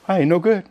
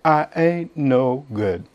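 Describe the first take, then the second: First: Lightly voiced Oklahoma country talk; Oklahoma accent. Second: Slow, softer Oklahoma drawl; unpolished Oklahoma saying, slow and soft; slow Oklahoma accent. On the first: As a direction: say it plain the way Oklahomans do. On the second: Shown as a demonstration. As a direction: let the Oklahoma twang settle on each word. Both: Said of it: "that's how they say it in Oklahoma".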